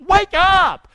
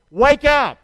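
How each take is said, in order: First: High, loud shout; shouted call. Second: Loud, firm wake up; loud call. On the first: Real, not acted. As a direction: rouse the room with a shout. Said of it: "Say that with me". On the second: Shown as a demonstration. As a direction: call it out strongly. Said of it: "Say it with me".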